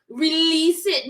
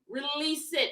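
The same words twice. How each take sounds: First: It is said in a put-on Jamaican accent. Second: It is said in the speaker's usual accent.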